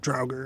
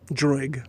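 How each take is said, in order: First: The word ends with an r sound. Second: The word ends without an r sound. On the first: The speaker calls it wrong. "most people call it draugr" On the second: The speaker calls it right. "that's actually pronounced wrong, I found out"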